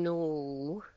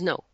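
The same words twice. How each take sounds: First: The voice rises at the end like a question. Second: The voice falls firmly at the end. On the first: The answer could still turn into a yes. The speaker calls it wrong. "Instead of saying no, which allows for a yes" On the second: The answer is final. The speaker calls it right. "no is no"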